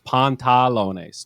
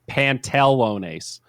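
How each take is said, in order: First: The middle vowel sounds like an A. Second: The middle vowel sounds like an E. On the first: The speaker calls it right. "It's pantalones, two A's" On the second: The speaker calls it wrong. "I did an E instead of an A in the middle"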